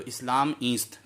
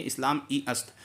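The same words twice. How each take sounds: First: "ईस्त" as one syllable with long ee; joined pronunciation. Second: "ई अस्त" unmerged, long ee then a fresh short a; separated pronunciation. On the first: Teacher showing the easier form for the tongue, joined pronunciation. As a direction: merge ई and अस्त into "ईस्त". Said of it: "लेकिन मिलाकर पढ़ देते हैं". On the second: Teacher showing the full form before joining, separated pronunciation. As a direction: say "ई" and "अस्त" as two words. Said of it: "ऐसे होना चाहिए". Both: Shown as a demonstration.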